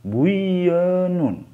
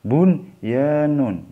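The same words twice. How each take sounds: First: Buyanun with the n merged into the y; wrong reading. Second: Bunyanun slow, n clearly sounded before y; correct recitation. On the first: Teacher warns students against reading buyanun. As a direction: swallow the n and say buyanun. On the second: Teacher models the right reading of Bunyanun. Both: Shown as a demonstration. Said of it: "Jangan dibaca buyanun".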